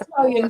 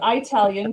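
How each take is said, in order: First: The first syllable is a plain short 'ih' sound. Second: The first syllable sounds like 'eye', Arkansas style.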